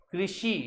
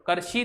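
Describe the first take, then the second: First: कृषि with a clear "kri" at the start; correct "kri-shi". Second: कृषि mispronounced with "kar" at the start; mistaken "kar-shi". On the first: Teacher reads the written word for students, correct pronunciation. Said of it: "तो उच्चारण में कृषि". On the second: Teacher shows what not to read, mistaken pronunciation. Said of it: "कृषि नहीं". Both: Shown as a demonstration.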